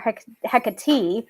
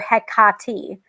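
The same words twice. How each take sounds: First: The middle syllable carries no stress. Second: The middle syllable carries the stress. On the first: The speaker calls it wrong. "with no emphasis on the middle syllable" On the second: The speaker calls it right. "with emphasis on the middle syllable, like this"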